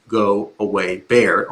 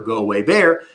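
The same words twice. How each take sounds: First: Low, steady, calm command; demonstrating a calm, low-pitched warning. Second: Said in the usual way. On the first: Shown as a demonstration. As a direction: calmly send it away, pitched low. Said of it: "in a low kind of calm voice". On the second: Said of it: "which is in Hebrew for".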